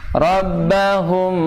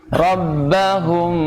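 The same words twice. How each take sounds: Both takes have the same delivery.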